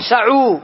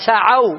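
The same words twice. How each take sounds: First: سعوا said sa'u with a final u sound; سعوا mispronounced as if the ain took damma; wrong pronunciation. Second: سعوا with the ain open, said sa'aw; سعوا ending in -aw, not -u; correct pronunciation. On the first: (سعوا بضم العين خطأً: سَعُوا) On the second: (سعوا بفتح العين: سَعَوْا) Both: Shown as a demonstration. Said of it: "ما أقول سعوا".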